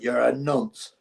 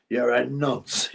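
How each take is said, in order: First: Said in the usual way. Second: Slow and deliberate, each word drawn out; slowed-down teasing jab; slow drawn-out jibe. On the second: Pretend. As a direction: drag the insult out slowly to rub it in. Jokey insult repeated to viewer.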